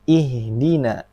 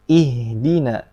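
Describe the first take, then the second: No difference in how they are said.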